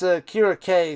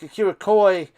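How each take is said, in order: First: The name ends with a 'kay' sound. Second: The name ends with a 'koy' sound. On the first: This is how the name is actually said. The speaker calls it right. "I think it's Akira K is how you pronounce that guy" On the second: This is how the name was said later. The speaker calls it wrong. "Then it was like Akira Koi"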